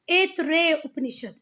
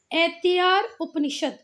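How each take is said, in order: First: ऐतरेय as "ait-rey", ending in "ey"; correct Hindi reading. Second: ऐतिहार ending in a long "aar"; English-spelling reading. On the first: Teacher giving students the Hindi name, "rey" ending on ऐतरेय. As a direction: say ऐतरेय with a long closing "rey". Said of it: "Hindi में उसे क्या कहते हैं". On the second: Teacher reading the English spelling aloud, "aar" ending on ऐतिहार. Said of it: "English में जो लिखा है". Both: Shown as a demonstration.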